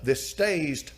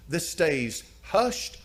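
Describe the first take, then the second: First: Said in the usual way. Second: Hushed drawn out very slowly; slow emphasis on hushed. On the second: Shown as a demonstration. Preacher to congregation, stressing that "hushed" was kept secret. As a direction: lean on "hushed", stretching it out. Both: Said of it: "preacher repeats phrase for emphasis".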